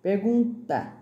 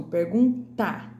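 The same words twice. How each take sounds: First: Said in the usual way. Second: "pergunta" slow with the final "ta" punched; sounded-out ending. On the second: Shown as a demonstration. Teacher making pupils hear the T, "pergunta" slow with stressed ending. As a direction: stretch "pergun", then hit "ta" in "pergunta". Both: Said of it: "ouvir o som".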